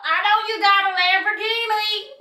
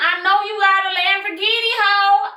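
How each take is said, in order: First: High put-on accent on the Lamborghini line; mock accent. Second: Playful sung line, up high; sung lyric. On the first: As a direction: say it like a different person's accent. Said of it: "I don't know where the accent came from". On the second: Pretend. Sings lyric about his Lamborghini.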